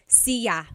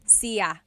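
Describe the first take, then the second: First: It is said as two syllables, see-ya. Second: It is said as two syllables, see-ya.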